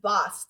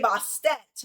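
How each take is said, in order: First: The name is one syllable with no 'et'. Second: The name ends with an extra 'et' syllable. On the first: The speaker calls it right. "it's actually just bust" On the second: The speaker calls it wrong. "for me, I would say Bastet"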